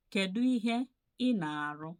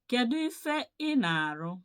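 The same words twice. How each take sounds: First: Said in the usual way. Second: "ife" in a high, loud call; loud teacher model; emphatic model question. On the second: Shown as a demonstration. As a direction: announce the question loudly for the class to repeat.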